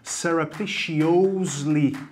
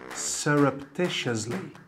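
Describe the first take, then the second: First: The ending is not said as 'us'. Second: The ending is said as 'us'. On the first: The speaker calls it wrong. "não falar assim" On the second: The speaker calls it right. "É us"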